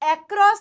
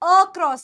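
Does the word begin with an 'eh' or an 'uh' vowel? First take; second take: eh; uh. First: The first vowel sounds like 'eh'. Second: The first vowel sounds like 'uh'. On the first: The speaker calls it wrong. "एक्रॉस नहीं है" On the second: The speaker calls it right. "अक्रॉस है"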